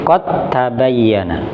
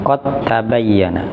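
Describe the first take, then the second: No difference in how they are said.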